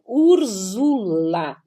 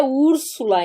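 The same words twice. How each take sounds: First: Ursula with a buzzing z, "ur-zu-la". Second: Úrsula with a hissed s, the Brazilian way. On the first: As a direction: stretch Ursula slowly syllable by syllable with z. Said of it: "e sim Ursula". (Ursula com som de Z, bem devagar) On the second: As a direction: say Úrsula with voiceless s. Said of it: "ele não é Úrsula em alemão". (Úrsula com som de S, à brasileira) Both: Shown as a demonstration.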